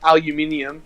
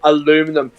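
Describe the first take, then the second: First: The word is said with five syllables. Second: The word is said with four syllables. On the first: The speaker calls it right. "Aluminium is the correct way to pronounce it" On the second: The speaker calls it wrong. "you go aluminum"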